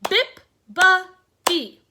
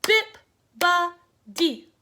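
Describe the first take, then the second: First: "Bip-ba-dee" very slow and loud, each syllable apart; syllables clapped out. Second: "Bip-ba-dee" very slow, loud, each syllable apart; syllables clapped out. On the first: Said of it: "how many syllables". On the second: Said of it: "One more time". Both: Shown as a demonstration.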